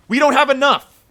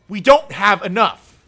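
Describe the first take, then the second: First: Higher and louder angry cry; real anger; angry exclaim. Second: Weighty, deliberate insistence; slower emphatic repeat. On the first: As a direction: shout the shortfall out in frustration. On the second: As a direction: drive "don't" home slowly. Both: Real, not acted. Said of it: "I'm sorry for how mad I'm getting".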